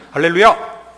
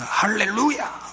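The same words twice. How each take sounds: First: It is said in a casual, light tone. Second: It is said in a deeply moved tone.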